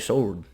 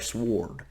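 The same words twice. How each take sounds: First: The word is said without a W sound. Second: The word is said with a W sound. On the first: The speaker calls it right. "round here we say sword" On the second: The speaker calls it wrong. "We don't say sword"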